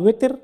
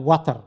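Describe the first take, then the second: First: The first vowel sounds like 'e'. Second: The first vowel sounds like 'a'. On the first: "কোন সময় এটা উচ্চারণ হয় ওয়েতের" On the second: "কোন সময় উচ্চারণ হয় ওয়াতর"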